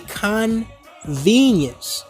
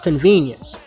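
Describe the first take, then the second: First: The first syllable 'con' is strongly emphasized. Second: The first syllable 'con' is not emphasized. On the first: The speaker calls it wrong. "with the emphasis on the con, the reason why I mispronounce it" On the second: The speaker calls it right. "it's really pronounced convenience"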